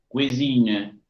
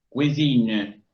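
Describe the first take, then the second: No difference in how they are said.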